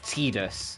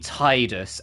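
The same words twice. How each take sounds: First: The first syllable does not sound like 'tide'. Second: The first syllable sounds like the word 'tide'. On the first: The speaker calls it wrong. "not Tidus" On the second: The speaker calls it right. "It was supposed to be Tidus, as in tide"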